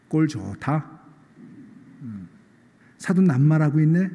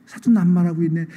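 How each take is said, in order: First: Wry, teasing jab at a hypocrite; mocking angel. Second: Mocking retort. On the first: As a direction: scoff at him like a smirking angel. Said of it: "이렇게 점잖게 얘기하지 않고". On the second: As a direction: throw his words back with a sneer. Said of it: "그 꼴이 너무 우스운 거예요".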